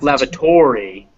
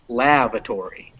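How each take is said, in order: First: The stress is not on the first syllable. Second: The stress is on the first syllable. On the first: The speaker calls it wrong. "It's not" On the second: The speaker calls it right. "first one is stressed here, it's lavatory"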